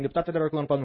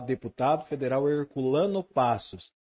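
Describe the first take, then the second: First: The name is said quickly and timidly. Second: The name is said slowly, openly and clearly. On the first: The speaker seems shy or intimidated saying it. The speaker calls it wrong. "Não fala assim" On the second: The speaker is proud and confident saying it. The speaker calls it right. "Tem que falar deputado federal Herculano Passos. Aí todo mundo entende"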